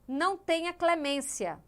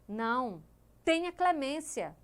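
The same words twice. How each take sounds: First: The words run together without a pause. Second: There is a pause after the first word. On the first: Mercy is refused. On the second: Mercy is asked for.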